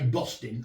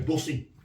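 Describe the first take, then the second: First: The T in the middle is pronounced. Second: The T in the middle is dropped. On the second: "not pronounce the T"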